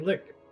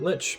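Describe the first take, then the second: First: The word ends with a 'k' sound. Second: The word ends with a 'ch' sound. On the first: "Maybe it's supposed to be lick" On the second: "I've always pronounced it lich"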